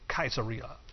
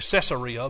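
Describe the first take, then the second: First: The name begins with a hard K sound. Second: The name begins with a soft S sound. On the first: This is how it is said locally. "over there they say Kaiser. They actually pronounce it Caesarea" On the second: This is how it is usually said here. "We just always say Caesarea"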